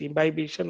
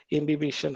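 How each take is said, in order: First: "imbibition" with a long i, im-bye-BISH-un; first pronunciation. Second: "imbibition" with short i, im-bi-BISH-un; "imbibition" with "bih" in the middle; second pronunciation. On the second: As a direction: say "imbibition" as im-bib-ish-un. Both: Shown as a demonstration. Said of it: "however you pronounce it as".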